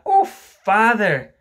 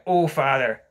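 First: Loud, high, drawn-out "Oh, father"; exclaimed reproach. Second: Loud, falling echo of her words; demanding quote. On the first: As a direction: cry out to father in dismay, stretching it. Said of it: "Wendy explained". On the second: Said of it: "Mister Darling demanded". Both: Acted.

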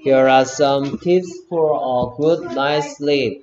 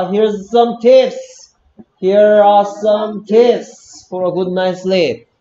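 First: Said in the usual way. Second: Loud model reading. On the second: Shown as a demonstration. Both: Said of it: "거꾸로 읽고 있습니다".

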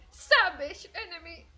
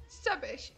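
First: Slow, louder mock announcer call, drawn out; a hint of an arena announcer, stretched "Savage enemy"; imitating the game announcer. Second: Said in the usual way. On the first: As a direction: play the game's kill announcer with a little more weight than her own voice. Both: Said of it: "no lo dice con esta voz de retrasada que tengo".

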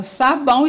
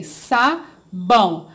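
First: Said in the usual way. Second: "Sabão" said slowly as "sa-bão", syllables pulled apart; teacher showing kids how to split a word. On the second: Shown as a demonstration. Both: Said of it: "e separei".

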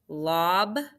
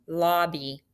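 First: "Lob-by" split in two, LOB, long pause, BY; syllable by syllable. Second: Said in the usual way. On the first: Shown as a demonstration. Teacher dictating lobby for spelling, syllable by syllable. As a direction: break "Lob-by" into separate beats, lob ... by. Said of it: "Lob. How'd you spell it?". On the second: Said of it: "Say it".

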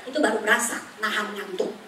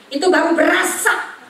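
First: Said in the usual way. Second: Loud, high "itu baru berasa" with berasa rising; preacher punching the word berasa; stress on berasa. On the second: Shown as a demonstration. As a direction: hammer home "berasa". Preacher repeats key phrase, louder.

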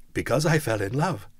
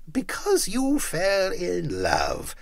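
First: Said in the usual way. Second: Slow, mocking growl. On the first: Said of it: "nephew's plain answer". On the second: A narrator's reading. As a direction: sneer it back slowly. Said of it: "growled Scrooge".

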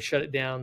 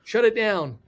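First: Said in the usual way. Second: Loud, high imitation of a panicked order; freaked out. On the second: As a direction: act out an alarmed command. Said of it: "everybody freaked out".

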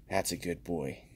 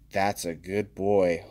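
First: Softer, lower cooing praise; soft pet praise. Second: Pet praise. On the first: Praising the card like a dog, softer and lower. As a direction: coo it like to a dog. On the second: Praising a card like a good dog, slow and cooing. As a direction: coo over the card like a pet. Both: Pretend.

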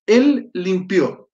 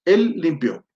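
First: Slow, drawn-out teacher model; slow model line. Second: Said in the usual way. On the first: Shown as a demonstration. Teacher models the Arabic verb's meaning for the class, slowly. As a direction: stretch it out so students catch each word.

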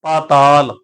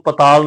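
First: ਪਾਤਾਲ with a long aa in the first syllable; long first vowel. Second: ਪਤਾਲ with a short first vowel. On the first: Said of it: "ਆਪਾਂ ਕੰਨੇ ਦਾ ਉਚਾਰਨ ਕਰਨਾ ਹੈ". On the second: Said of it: "ਇਹਨੂੰ ਪਤਾਲ ਨਹੀਂ ਪੜਨਾ". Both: Shown as a demonstration.

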